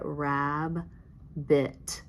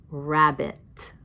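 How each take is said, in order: First: Rabbit drawn out slowly, "Raaab - bit"; stretched syllables. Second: Said in the usual way. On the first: Shown as a demonstration. Teacher sliding a finger under the word, syllables stretched. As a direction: slide through Rabbit, holding each syllable long. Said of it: "we're gonna slide it". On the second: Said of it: "put those two syllables together".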